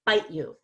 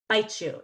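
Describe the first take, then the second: First: "bite you" with a crisp T, then a clear "you"; separate T and Y. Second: "bite you" run together as "bitechu", T and Y becoming CH; blended bite-chu. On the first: Teacher shows learners the unblended version. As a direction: keep the words apart, no blending. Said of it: "instead of". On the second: Teacher shows learners the blended version. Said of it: "blend together to become a C H". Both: Shown as a demonstration.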